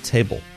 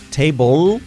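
First: The final L is cut short and barely heard. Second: The final L is pronounced clearly and fully. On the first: The speaker calls it right. "Ya al final se corta un poquito y es muy, muy, muy sutil" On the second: The speaker calls it wrong. "No es table"

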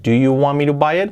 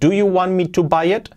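First: The words run together in one linked stream. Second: Each word is said separately and fully. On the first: The speaker calls it right. "unimos las palabras, como siempre, con la unión, el linking que hacen los nativos" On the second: The speaker calls it wrong. "Si pronunciamos palabra por palabra con todas las letras correctamente, sería así, pero nadie habla así"

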